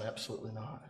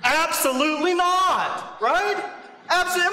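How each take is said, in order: First: Said in the usual way. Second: Stamp on "Absolutely not"; emphatic no. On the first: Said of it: "it is emphatic". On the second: Shown as a demonstration. Preacher to congregation, driving home Paul's emphatic no. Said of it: "I mean, it is emphatic".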